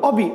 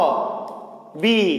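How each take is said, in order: First: The word is said quickly as one run. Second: The word is said slowly, syllables apart. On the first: The speaker calls it wrong. "Sir আমি তাড়াতাড়ি করে বলবো" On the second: The speaker calls it right. "আর তাড়াহুড়া করবেন না, আপনি ধীরে ধীরে বলবেন"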